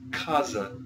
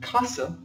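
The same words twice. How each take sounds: First: The middle consonant is a z sound. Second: The middle consonant is an s sound. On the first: The speaker calls it right. "It is casa, like you would say in Portuguese" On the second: The speaker calls it wrong. "this isn't casa, like you would say in Spanish"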